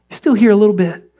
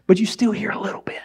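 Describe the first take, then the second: First: Said in the usual way. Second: Hushed whisper of muffled sound; faint whisper. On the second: Shown as a demonstration. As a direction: breathe it like sound through earplugs. Whispers what earplugs let through.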